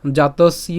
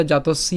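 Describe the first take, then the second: First: জাতস্য spoken carefully as jatos, then iya; deliberate teaching demo of জাতস্য; syllable-by-syllable. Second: জাতস্য flowing as a single word; joined pronunciation. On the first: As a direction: separate the "iya" at the end of জাতস্য. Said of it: "জফলার উচ্চারণ ইয় করব". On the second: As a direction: run jatos and iya together in জাতস্য. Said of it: "একসাথে বলে". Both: Shown as a demonstration.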